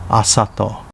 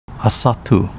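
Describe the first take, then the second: First: The name is said with Japanese sounds. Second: The name is said with Okinawan sounds. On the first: This is the name's present-day reading. "current reading" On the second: This is the name's older native reading.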